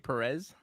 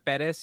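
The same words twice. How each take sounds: First: The name has an English pronunciation. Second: The name has a Spanish pronunciation. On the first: This is how the host mispronounces it. The speaker calls it wrong. "you say Perez" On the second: This is how the name should be said. The speaker calls it right. "instead of saying Perez"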